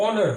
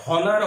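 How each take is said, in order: First: অনার with a silent H, starting on the vowel; অনার with no H sound at all; correct pronunciation. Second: হনার with a sounded H at the start; হনার with an audible H; wrong pronunciation. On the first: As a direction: drop the H and open straight on অনার. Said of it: "এইচটা বাদ দিয়ে উচ্চারণ হচ্ছে". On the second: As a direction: say হনার, breathing out the H. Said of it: "হনার হওয়ার কথা ছিল". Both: Shown as a demonstration.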